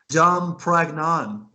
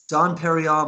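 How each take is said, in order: First: The second word is said as 'Pragnon'. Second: The second word is said as 'Perignon'. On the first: The speaker calls it wrong. "but she said Dom Pragnon" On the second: The speaker calls it right. "name of the champagne is Dom Perignon"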